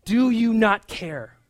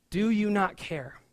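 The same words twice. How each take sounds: First: Loud, slow, accusing question; biting reproach. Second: Muttered reproach. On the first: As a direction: demand an answer. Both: Retold or imitated. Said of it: "such biting, uh, words for Jesus".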